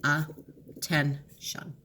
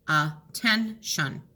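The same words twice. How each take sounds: First: Slow "Attention", split at the double T; correct split. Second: Slow "Attention" split in the wrong place. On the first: Teacher to students, showing the right split. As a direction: break "Attention" between the two Ts. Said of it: "let's divide the double T". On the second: Teacher to students, testing a wrong split. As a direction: try "Attention" in the wrong spots. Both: Shown as a demonstration.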